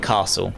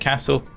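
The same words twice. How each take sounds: First: It is said the southern English way. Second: It is said the northern English way. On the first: This is the speaker's own pronunciation. "I say castle" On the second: This pronunciation makes it rhyme with hassle. "more of a northern thing in the U K to, to say castle"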